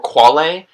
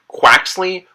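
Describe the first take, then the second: First: The name is pronounced with Spanish sounds. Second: The name is pronounced with English sounds. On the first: "Spanish phonetics" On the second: "English phonetics"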